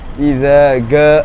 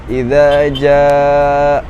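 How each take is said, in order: First: The second word begins with a hard g sound. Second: The second word begins with a j sound. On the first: This reflects the colloquial dialect habit. The speaker calls it wrong. "Tapi dia bacanya idza ga gitu. Pakainya huruf G" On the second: This is the correct Quranic reading. The speaker calls it right. "harusnya kan pakai ja gitu"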